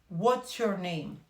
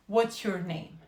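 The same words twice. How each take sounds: The two takes are said the same way.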